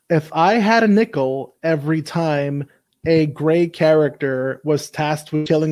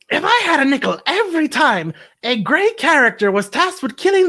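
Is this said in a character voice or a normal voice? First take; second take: normal voice; character voice. First: It is said in the speaker's ordinary voice. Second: It is said in a put-on character voice.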